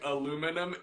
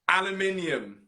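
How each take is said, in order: First: The word is said with four syllables. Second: The word is said with five syllables. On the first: This is the American form. The speaker calls it wrong. "they just chose to shorten that word to aluminum" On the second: This is the British form. The speaker calls it right. "I'll always stand by British"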